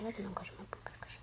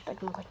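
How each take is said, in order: First: Softer and softer until a whisper; fading whisper. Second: Said in the usual way. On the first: Real, not acted. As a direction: let it die away into a whisper. Phrase sinks into whisper.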